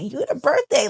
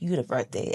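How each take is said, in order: First: It sounds admiring, like a compliment. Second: It sounds mocking, like a put-down.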